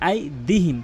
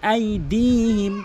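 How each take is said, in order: First: The di vowel is short. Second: The di vowel is drawn out long. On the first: The speaker calls it wrong. "অধিকাংশ লোক আইদিহিম বলে" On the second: The speaker calls it right. "টেনে পড়তে হবে"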